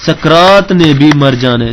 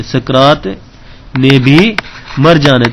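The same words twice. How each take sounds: First: Said in the usual way. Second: سکرات, نے بھی, مر جانا ہے broken into three chunks with pauses; word by word conclusion. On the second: Shown as a demonstration. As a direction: spell out سکرات ... نے بھی ... مر جانا ہے for the class, landing on مر. (ٹھہر ٹھہر کر، ہر حصہ الگ، مر پر زور) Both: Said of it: "conclusion?".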